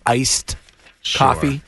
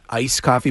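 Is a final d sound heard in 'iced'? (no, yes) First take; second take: yes; no. First: The final d of 'iced' is pronounced. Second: The final d of 'iced' is dropped. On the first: The speaker calls it right. "You're supposed to say iced coffee" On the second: The speaker calls it wrong. "not iced coffee"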